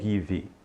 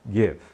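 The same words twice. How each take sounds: First: It ends with an added short 'ee' vowel. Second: It ends on the V consonant. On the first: The speaker calls it wrong. "Não diga give" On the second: The speaker calls it right. "Então eu vou dizer give"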